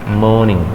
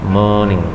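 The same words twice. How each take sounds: No difference in how they are said.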